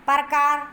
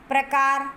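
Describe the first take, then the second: Both takes have the same delivery.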